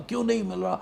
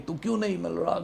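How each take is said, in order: First: "کیوں نہیں مل رہا" pushed much higher, a cracking plea; mock desperate call, pitch climbing far up; desperate cry. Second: Mild mock cry of longing, pitched up; pleading cry. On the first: (اونچی، بے بس پکار) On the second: (ہلکی سی التجا بھری پکار) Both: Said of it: "زور زور سے کہہ رہا ہوں".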